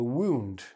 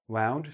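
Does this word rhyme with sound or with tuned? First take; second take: tuned; sound. First: The vowel sounds like the one in tuned. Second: The vowel sounds like the one in sound. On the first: It means to injure someone. "Tuned, like your guitar needs to be tuned" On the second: It is the past tense of wind. "like the past tense of wind ... Wound, sound"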